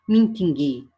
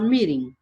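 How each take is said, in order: First: The middle consonant is a clear t sound. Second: The middle consonant sounds almost like an r. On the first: The speaker calls it wrong. "Você não vai ler assim" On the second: The speaker calls it right. "esse T aqui, ele vira quase um R"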